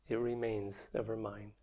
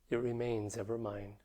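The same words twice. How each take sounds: The two takes are said the same way.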